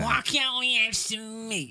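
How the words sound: It is said in a pinched, nasal voice. "it's all living up in the nose"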